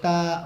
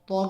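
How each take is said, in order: First: The letter name is said light and thin. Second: The letter name is said heavy and full-mouthed. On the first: The speaker calls it wrong. "ता नहीं पढ़ेंगे" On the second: The speaker calls it right. "तो को भी पुर करके पढ़ेंगे"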